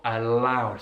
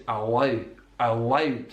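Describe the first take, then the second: First: "allowed" with a light L at the front of the mouth; tongue forward for the L in "allowed". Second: "allowed" with a dark L from the back of the mouth; L in "allowed" made with the tongue down at the back. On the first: Teacher giving the contrasting version, light L. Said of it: "not a light L". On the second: Teacher showing a Scottish feature, dark L. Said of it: "it's a dark L". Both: Shown as a demonstration.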